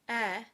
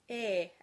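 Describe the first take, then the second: First: The vowel is said with the mouth open. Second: The vowel is said with the mouth closed. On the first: "the open E symbol on the left" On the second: "the closed E symbol on the right"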